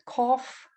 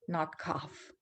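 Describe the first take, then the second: First: The vowel is a short rounded o. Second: The vowel is an open unrounded uh. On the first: The speaker calls it right. "it's not an ah sound" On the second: The speaker calls it wrong.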